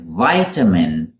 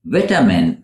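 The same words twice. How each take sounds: First: "vitamin" as VY-tuh-min; long first vowel in "vitamin"; American "vitamin", opening like "vie". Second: "Vitamin" as VIT-uh-min; short first vowel in "Vitamin"; British "Vitamin", first syllable rhyming with bit. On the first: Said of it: "in American English". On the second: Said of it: "for British speakers". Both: Shown as a demonstration.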